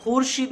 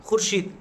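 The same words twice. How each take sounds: First: खुर्शीद stretched to khoorsheed; wrong long oo. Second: खुर्शीद with a short first u; quick khur, then sheed, in खुर्शीद; खुर्शीद with the vao silent; correct short u. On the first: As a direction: draw out the first vowel of खुर्शीद. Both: Shown as a demonstration. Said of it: "खुर्शीद नहीं कह रहे हैं ना".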